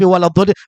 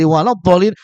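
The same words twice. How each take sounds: First: The phrase is articulated loosely and carelessly. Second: The phrase is articulated precisely and carefully. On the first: This is how it was read before being taught. The speaker calls it wrong. "bukan walad dolin" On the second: This is how it is read after being taught. The speaker calls it right. "tapi walad dolin menjadi walad dolin"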